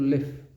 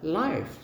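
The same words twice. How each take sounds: First: Pronounced like the verb in 'where do you live'. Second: Pronounced like the adjective in 'live show'. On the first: "seperti dalam kalimat where do you live" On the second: "seperti dalam kalimat live show"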